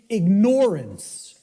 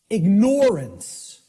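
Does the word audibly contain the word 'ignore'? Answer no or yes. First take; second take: yes; yes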